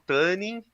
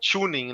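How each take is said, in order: First: It is said with a Brazilianized pronunciation. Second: It is said with an English-style pronunciation. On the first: This is the habitual local way of saying it. The speaker calls it wrong. "eu falo tuning" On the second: This follows the original pronunciation. The speaker calls it right. "o correto é falar tuning"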